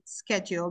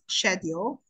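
First: It is said the common, non-British way. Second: It is said the British way. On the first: "even now I say schedule because it is the most popular" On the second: "British one is schedule"

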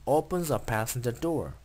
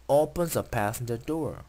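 The two takes are said the same way.

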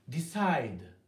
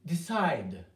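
No difference in how they are said.

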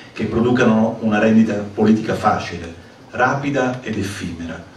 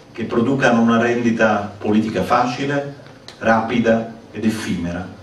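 The two takes are said the same way.

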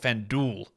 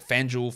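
First: The second part starts with a plain D sound. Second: The second part starts with a J-like sound. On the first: "in America, you don't pronounce it that way. You call it FanDuel" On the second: "I read FanDuel"

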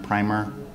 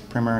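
First: The first vowel is long, as in 'rhyme'. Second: The first vowel is short, as in 'trim'. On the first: It means an undercoat applied before painting. The speaker calls it wrong. "not primer. Primer is what you put on before you paint" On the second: It means an introductory book. The speaker calls it right. "that is primer"

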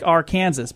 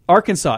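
First: The name is said the way it is spelled. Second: The name is said the usual, accepted way. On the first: The speaker calls it wrong. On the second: The speaker calls it right.

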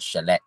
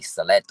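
First: The word begins with an sh sound. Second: The word begins with a plain s sound. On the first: "A lot of the S words have that sh sound" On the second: "It just depends on your accent and where you're from"

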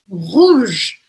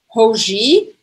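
First: The word ends on the final consonant sound. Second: An extra vowel is sounded after the final consonant. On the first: The speaker calls it right. "Última coisa que eu pronuncio é o G" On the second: The speaker calls it wrong. "eu não vou falar ... nada disso. Não vou falar esse E no final"

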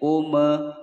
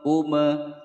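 No difference in how they are said.

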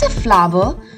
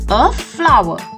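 First: The word is said as two syllables. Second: The word is said as one syllable. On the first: The speaker calls it wrong. "Not a flower" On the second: The speaker calls it right. "You have to merge these two words to get the real pronunciation"

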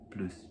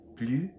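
First: The final S is sounded. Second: The final S is silent. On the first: "Então, pronuncia" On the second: "então não pronuncio o S"

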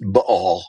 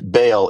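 First: The word has a hiccup-like catch in the middle. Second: The word flows without a catch in the middle. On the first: The speaker calls it right. "it's Baal. Sounds like you have a hiccup" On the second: The speaker calls it wrong. "we talk about they worshipped Baal"

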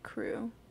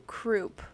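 First: The word ends without any P sound. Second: The word ends with an audible P sound. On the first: The speaker calls it wrong. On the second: The speaker calls it right.

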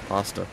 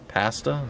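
First: The A has the usual American pronunciation. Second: The A has a Canadian-style pronunciation.

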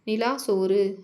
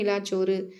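First: The two words join with no added consonant. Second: A doubled 'ch' sound joins the two words. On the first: The speaker calls it wrong. "நிலா சோறு அப்படின்னு சொல்ல மாட்டேன்" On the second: The speaker calls it right. "சும்மா நார்மலாக படித்து பாருங்கள்... அப்போ இச்சு வந்துடும்"

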